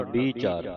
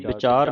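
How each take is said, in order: First: ਵੀਹ ਚਾਰ as two words with a long "ee"; ਵੀਹ ਚਾਰ, long first vowel then a fresh word; split, long ee. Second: ਵਿਚਾਰ as one word with a short i; ਵਿਚਾਰ, clipped first vowel, no split; mistaken joined word. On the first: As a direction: separate ਵੀਹ ਚਾਰ into bee, chaar. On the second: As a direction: run ਵਿਚਾਰ together as bi-CHAAR. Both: Shown as a demonstration. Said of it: "ਵਿਚਾਰ ਨਹੀਂ ਪੜ੍ਹਨਾ".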